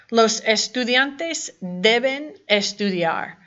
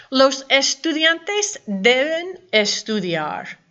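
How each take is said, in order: First: Said in the usual way. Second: Slow, careful dictation; slow model reading. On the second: Shown as a demonstration. Teacher reading a sentence aloud for students, slow and careful. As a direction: read it slowly so students catch each word.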